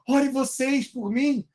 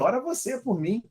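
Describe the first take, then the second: First: The tone is desperate and pleading. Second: The tone is cocky and dismissive. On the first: The request comes from fear of dying in sin. "Ou um tom de desespero" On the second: The request is made with arrogance and no real repentance. "Pode ter sido um tom meio marrento"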